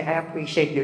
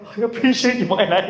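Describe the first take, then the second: First: Said in the usual way. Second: Higher, wobbly imitation of crying up; hammed-up weepy thanks; mock tearful. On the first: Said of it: "My wife went on to say". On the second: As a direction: play at being moved to tears. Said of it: "Ako pa yung umiyak".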